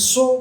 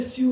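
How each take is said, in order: First: The word is said with an 'oh' vowel. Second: The word is said with an 'oo' vowel. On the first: "be modest and tell them it's so" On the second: "if you want to say S U, it's okay"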